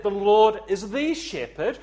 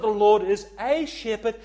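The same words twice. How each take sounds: First: THE leaned on as "thee", raised and loud; emphatic, full "thee" on THE; stress on THE. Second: A said as a full, loud "ay"; emphatic long "ay" on A; stress on A. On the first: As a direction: punch the word THE before shepherd. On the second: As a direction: punch the word A before shepherd. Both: Shown as a demonstration. Contrasts the, a and my shepherd.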